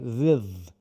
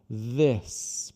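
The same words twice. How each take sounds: First: The tongue stays forward, blurring the final s. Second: The tongue pulls back, giving a clear final s. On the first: The speaker calls it wrong. "às vezes a tendência... é colocar a língua de volta. Então, fazer this" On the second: The speaker calls it right. "você tem que retirar a língua depois do T H"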